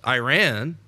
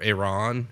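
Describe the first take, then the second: First: Iran said as "eye-RAN"; eye-RAN pronunciation. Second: Iran said as "ih-RAHN"; ih-RAHN pronunciation. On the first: Radio host offering his co-host one way to say it, Iran as "eye-RAN". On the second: Radio host offering the other way to say it, Iran as "ih-RAHN". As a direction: say Iran with a short i and an open "ah" as in "Ron". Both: Shown as a demonstration. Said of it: "however you wanna say it".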